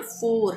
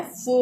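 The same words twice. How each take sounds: First: "फोर" with the r sounded; Indian pronunciation. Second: "फो" for four, r silent; British pronunciation. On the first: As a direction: finish "फोर" on a clear r. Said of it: "हम बोलते हैं ना". ("फोर" में र बोलें) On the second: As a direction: stretch the vowel of "फो" slowly, no r. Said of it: "तो ये है फो". ("फो", र के बिना) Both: Shown as a demonstration.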